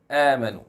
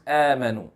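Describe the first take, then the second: First: The hamza is pronounced light. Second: The same.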